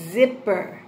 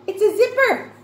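First: "Zipper" low and clearly articulated; careful sounding-out. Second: High, loud delighted discovery; excited reveal. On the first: Shown as a demonstration. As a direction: say "Zipper" carefully, with a long buzzing Z. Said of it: "Now listen". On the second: Pretend. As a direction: reveal it to children with big excitement. Teacher reveals a picture.

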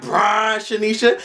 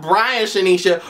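First: Slow, high, BRIAN stressed with a rise: "Brian Shanisha"; right way to say it. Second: Quicker "Brian Shanisha" with plainer stress on "Brian", no rise; the wrong way to say it. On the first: Vlogger showing how the name should sound, slow high stress on "Brian". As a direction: stretch "Brian Shanisha" slowly, leaning on "Brian" and lifting at the end. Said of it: "You supposed to say it like". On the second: Vlogger showing the wrong way to say the name, plainer. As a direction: toss off "Brian Shanisha" flatly as the wrong version. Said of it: "not Brian Shanisha".

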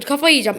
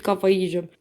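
First: Kafayı yiyeceğim said higher and louder in exasperation; fed-up Kafayı yiyeceğim; exasperated outburst. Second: Said in the usual way. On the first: Real, not acted.

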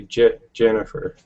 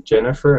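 First: Jennifer with its first syllable said twice, Je-Jennifer; stutter-like repeat of Je before Jennifer for emphasis; emphatic doubled syllable. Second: Said in the usual way. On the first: Shown as a demonstration. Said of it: "it'd be like an emphasis on Jennifer". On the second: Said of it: "say I was saying your name".

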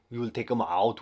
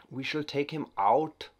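First: Louder, punchier mock German accent. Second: Slow, higher mock German accent; weird German voice. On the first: Gamer restating the takedown in louder mock German accent. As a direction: bark the plan in a hammed-up German accent. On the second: Gamer plotting a takedown in mock German accent. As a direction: drawl the threat in a hammed-up German accent. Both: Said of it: "that weird German voice".

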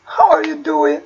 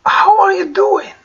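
First: Said in the usual way. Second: Slow, higher teaching model; slow model phrase. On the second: Shown as a demonstration. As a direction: lift and stretch it for learners. (ببطء وبنبرة أعلى) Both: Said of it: "teaching demo".

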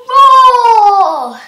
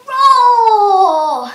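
First: Big loud slow lion roar. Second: Loud drawn-out lion roar, slow. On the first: Teacher demonstrating lion push-ups, roaring loud and slow. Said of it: "and then roar". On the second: Fitness teacher showing the lion push-up, loud slow roar. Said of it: "and then you go roar". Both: Shown as a demonstration.

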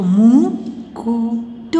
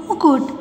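First: मुकुट very slow with gaps between syllables. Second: Said in the usual way. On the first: Shown as a demonstration. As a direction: sound out मुकुट piece by piece. (मुकुट को रुक-रुक कर, धीरे) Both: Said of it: "sound pronounce करके देख लीजिए".

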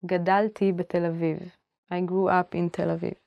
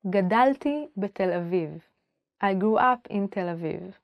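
Both takes have the same delivery.

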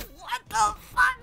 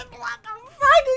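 First: Higher, slow, drawn-out disbelief; stunned disbelief. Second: Much higher, blurted disbelief; stunned disbelief. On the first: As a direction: gasp it out, baffled and amused. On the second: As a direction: blurt it, laughing in shock. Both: Real, not acted. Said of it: "And I'm like".

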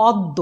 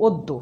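First: অদ্য with open "aw" first vowel; as written. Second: অদ্য with closed "o" first vowel; pronounced with O. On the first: Teacher reading out the spelling, অদ্য with open aw. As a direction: say অদ্য as "awd-do". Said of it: "আমরা লিখেছি অদ্য". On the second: Teacher giving the spoken form, অদ্য with closed o. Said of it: "কিন্তু উচ্চারণ করছি". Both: Shown as a demonstration.

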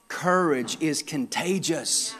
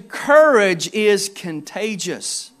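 First: Quieter, slow, letting it sink in; soft, slow repetition. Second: Slow, weighty, each word set apart; slow emphatic statement. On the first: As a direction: drop the voice and let it settle. Key point repeated softly. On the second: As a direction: land the main point slowly. Key point stated slowly. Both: Real, not acted.

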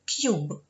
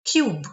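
First: Whispered model. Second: Cube said loud, clipped; teacher model word. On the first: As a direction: whisper Cube to yourself. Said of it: "тому Ю має звук Ю". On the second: Teacher modelling English for pupils, loud and clear. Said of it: "Відкритий склад". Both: Shown as a demonstration.

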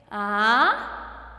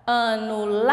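First: "Anular" em três sílabas, com pausas; separando as sílabas. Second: LAR de "Anular" longo e forte; chamando a palavra. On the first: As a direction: diga "Anular" pausado: a, nu, lar. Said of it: "quantas sílabas tem?". ("Anular" silabado devagar, sílaba por sílaba) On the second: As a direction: chame "Anular" esticando o LAR final. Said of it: "E a sílaba tônica?". ("Anular" sem pausas, tônica LAR prolongada) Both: Shown as a demonstration.

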